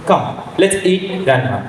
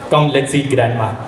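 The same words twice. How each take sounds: First: There is a pause before grandma. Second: It runs straight on with no pause.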